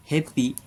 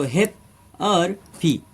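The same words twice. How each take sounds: First: Said in the usual way. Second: "हैप" और "पी" अलग-अलग बोलें, बीच में "और" और ठहराव; "हैप", फिर रुककर "पी", शिक्षक की तरह; दो हिस्सों में. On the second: Shown as a demonstration. (Hindi में सिलेबल तोड़कर: "हैप… और… पी") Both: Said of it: "ये दो सिलेबल वाले वर्ड है".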